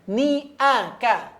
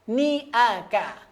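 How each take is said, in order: No difference in how they are said.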